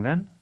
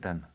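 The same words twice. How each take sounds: First: Then? said with a rising end, uncertain; a questioning then? with the tune going up. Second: Then? said with a falling end, settled; a firm, closed then? with the tune going down; falling question. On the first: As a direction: lift then? upward in genuine doubt. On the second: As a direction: let then? drop down like a conclusion. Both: A narrator's reading.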